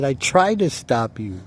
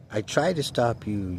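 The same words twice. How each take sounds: First: Raised and higher, almost shouting; insisting loudly. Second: Said in the usual way. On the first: Retold or imitated. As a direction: throw it back at him in anger. Arguing with the kid who stole.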